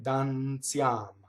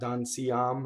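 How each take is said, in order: First: The i glides quickly into the following vowel. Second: The i is sounded as a full separate vowel. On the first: The speaker calls it right. "the I is a semivowel" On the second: The speaker calls it wrong. "It's not dan siam"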